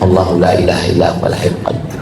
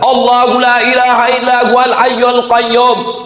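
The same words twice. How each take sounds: First: It is recited softly and quietly. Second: It is recited loudly and forcefully. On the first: The speaker calls it wrong. "bukan yang pelan" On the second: The speaker calls it right. "Bukan itu yang dipakai kuat"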